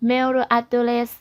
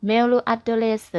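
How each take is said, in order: No difference in how they are said.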